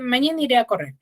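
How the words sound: The voice falls at the end, like a statement.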